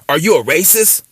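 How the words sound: It is asked with strong, intense passion. The speaker calls it right. "you got to say it the right way with the right type of passion"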